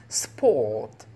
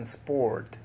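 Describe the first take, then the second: First: The r sound after the vowel is silent. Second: The r sound after the vowel is pronounced. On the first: This is how the British say it. The speaker calls it right. "los británicos no usan así como que la R" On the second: This is how Americans say it. The speaker calls it wrong. "No dicen sport"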